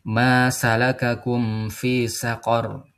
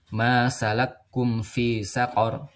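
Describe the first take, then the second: First: The k is followed by a short vowel. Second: The k is doubled with no vowel between. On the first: This is the common reading without merging. "Kalau di bacaan kita" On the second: This is the reading of Abu Amr with merging. "Ini kafnya ditasdid"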